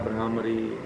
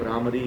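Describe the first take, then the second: First: The word is said slowly and deliberately. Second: The word is said at a normal pace.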